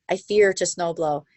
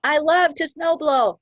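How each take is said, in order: First: Said in the usual way. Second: High, slow and bright with delight; loving it. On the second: Shown as a demonstration. Coach showing the love way to say it, gushing high and slow. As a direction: gush over the chore like it's a treat. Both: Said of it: "love, not fear".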